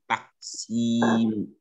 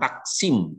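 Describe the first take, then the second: First: The vowel after the s is long. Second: The vowel after the s is short. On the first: The speaker calls it right. "Sinnya panjang" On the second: The speaker calls it wrong. "Bukan taksim"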